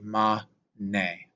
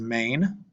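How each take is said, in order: First: It is said as two separate syllables. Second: It is said as a single syllable. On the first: The speaker calls it right. "in Latin, you pronounce every syllable that you see" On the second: The speaker calls it wrong. "in English, we would probably just pronounce this as mane"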